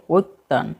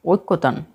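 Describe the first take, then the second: First: "ঐক্যতান" shortened to oik-tan; correct form. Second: "ঐক্যতান" with a full kko syllable, okkotan; wrong form. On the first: Teacher corrects the word for learners, correct form. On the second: Teacher gives learners the misspelt word, wrong form. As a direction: say "ঐক্যতান" as ok-ko-tan. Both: Shown as a demonstration. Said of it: "সঠিক হবে ঐক্যতান".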